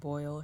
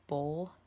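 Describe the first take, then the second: First: The vowel is the usual 'oi' glide. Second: The vowel sounds like 'oh', as in bowl. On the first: "Instead of saying boil" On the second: "she says bowl"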